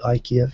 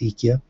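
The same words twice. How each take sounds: First: It is pronounced the usual English way. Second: It is pronounced the Japanese, Swedish-like way. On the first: "they don't call it IKEA in Japan" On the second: "they call it IKEA, which I think is actually the correct pronunciation uh, under the original Swedish"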